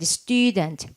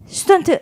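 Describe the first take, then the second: First: The first vowel is long and strong. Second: The first vowel is short and weak. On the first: The speaker calls it right. "이걸 좀 강하게 해야지" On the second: The speaker calls it wrong. "student 이러면 안 되고요"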